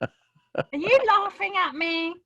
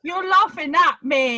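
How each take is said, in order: First: High-pitched mock-offended question; indignant question. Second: Loud, high mock-offended accusation; indignant accusation. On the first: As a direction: challenge the one laughing at you. Challenges coach who is laughing. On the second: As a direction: accuse them loudly of making fun of you. Accuses laughing coach a second time. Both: Real, not acted.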